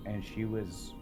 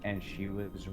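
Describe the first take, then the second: No difference in how they are said.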